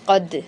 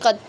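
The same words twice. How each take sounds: First: The final d ends with a light echoing bounce. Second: The final d stops flat with no bounce. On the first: The speaker calls it right. "कद कद ठीक है" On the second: The speaker calls it wrong. "अगर हम कलखला ना करें, कद ऐसे पढ़ लें, तो फिर ये गलत है"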